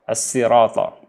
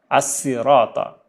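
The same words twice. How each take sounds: The two takes are said the same way.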